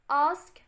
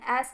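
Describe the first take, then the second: First: It is said in a British accent. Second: It is said in an Australian accent.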